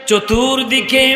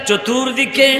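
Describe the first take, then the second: The two takes are said the same way.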